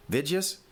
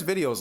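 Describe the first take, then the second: First: "Vidyas" as vid-juhs, questioning rise; mimicked old-time pronunciation. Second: Said in the usual way. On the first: Host incredulous at old coach's word, mimicked pronunciation of "Vidyas". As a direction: echo the coach's squashed "Vidyas" in disbelief. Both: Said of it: "who says videos like that anymore".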